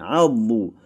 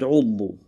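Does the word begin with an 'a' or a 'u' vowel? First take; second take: a; u. First: The word begins with an 'a' vowel. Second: The word begins with a 'u' vowel. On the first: The speaker calls it right. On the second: The speaker calls it wrong.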